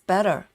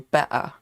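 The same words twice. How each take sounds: First: The middle T is soft, almost like a D. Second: The middle T is left out entirely. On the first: "American says better. So it's a very soft T" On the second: "some people say better, like we skip the T"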